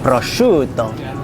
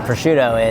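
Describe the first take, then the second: First: It is said with an Italian pronunciation. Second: It is said with an American pronunciation. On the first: The speaker calls it right. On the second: The speaker calls it wrong.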